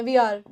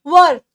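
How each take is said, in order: First: "वीआर" said as two clear parts, wee then ar, low and soft; right take. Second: "were" said as one short loud syllable, the wrong way; wrong take. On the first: Teacher giving students the correct "वीआर", low and soft. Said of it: "इसको वीआर ही बोलते हैं". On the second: Teacher showing students the mistaken "were" for "we are". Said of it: "नहीं, we are, इसको वीआर ही बोलते हैं". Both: Shown as a demonstration.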